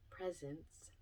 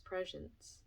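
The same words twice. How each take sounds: First: "presence" with a clean z sound; corrected pronunciation. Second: "presence" with a zh sound for the z; slip of the tongue. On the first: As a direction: say "presence" softly as "PREZ-ence". Corrects own slip, then laughs. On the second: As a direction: slip on "presence", saying "prezhence". Slip, repeated corrected, then laughs. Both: Real, not acted.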